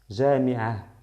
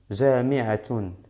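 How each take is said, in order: First: The word ends with a soft breathy 'ah'. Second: The word ends with a full 'tun' syllable. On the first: "no voy a pronunciar doble damma" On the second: "aquí voy a pronunciar doble, doble damma"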